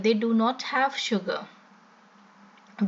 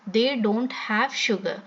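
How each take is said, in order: First: The words 'do not' are said in full. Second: The words 'do not' are contracted to 'don't'.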